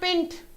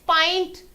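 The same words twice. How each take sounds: First: The vowel is short, as in 'pin'. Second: The vowel is long, like the letter name. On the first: The speaker calls it wrong. "it's not pint" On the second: The speaker calls it right. "here you say the name of the vowel"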